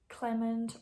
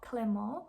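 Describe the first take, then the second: First: The name is pronounced the English way. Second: The name is pronounced the French-Belgian way. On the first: The speaker calls it wrong. "how you would pronounce that in English" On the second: The speaker calls it right. "I'm saying this in a Dutch way or in kind of a French Belgian way"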